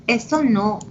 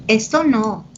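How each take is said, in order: Both takes have the same delivery.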